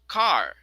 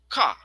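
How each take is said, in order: First: The r sound at the end is pronounced. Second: The r sound at the end is dropped. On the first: "American, it is car" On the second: "In British, ka"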